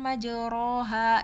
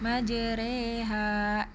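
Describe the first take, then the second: First: The vowel after r is an open a. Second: The vowel after r is a thin e. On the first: "Ini kan majoroha gitu kan" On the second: "dibaca seperti e orang timur"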